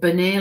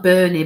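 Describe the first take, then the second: First: Bernie as "buh-NAY"; corrected pronunciation. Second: Bernie as "BUR-nee", louder; rejected pronunciation. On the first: Retold or imitated. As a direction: shift Bernie's weight to a final "ay". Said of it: "like it had a bit of a". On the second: Shown as a demonstration. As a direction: stress the first syllable of Bernie, ending in "ee". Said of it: "not Bernie".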